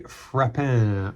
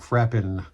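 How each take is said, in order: First: The name is pronounced the French way. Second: The name is pronounced the English way.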